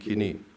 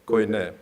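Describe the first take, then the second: First: It is said with modern Greek pronunciation. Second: It is said with Erasmian pronunciation. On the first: "so I pronounce it in the Greek way" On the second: "not koine in Erasmian"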